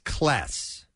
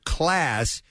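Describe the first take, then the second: First: It is said with a Cincinnati short vowel. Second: It is said with a general American vowel.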